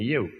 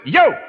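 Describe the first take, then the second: First: The word is said softly and gently. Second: The word is said loudly and forcefully. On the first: A woman asserts herself more quietly. "Și ea nu spune eu, cum spune bărbatul" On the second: A man insists on his own authority. "Și auzi pe bărbați în casă, bătând cu pumnul în masă"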